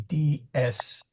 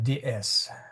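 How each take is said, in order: First: The first vowel is held long. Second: The first vowel is cut short.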